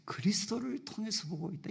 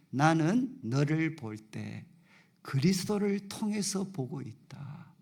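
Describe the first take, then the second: First: Hushed whisper. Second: Slow, weighty words from God, stress on 나는; slow solemn quote. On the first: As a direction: drop to a whisper for the second half. Same words repeated, fading to whisper. (천천히 시작해 뒷부분은 속삭이듯) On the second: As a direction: lay each word down slowly, leaning on 나는. Quoting God's words slowly. (느리고 엄숙하게, '나는'에 힘주어) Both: Retold or imitated.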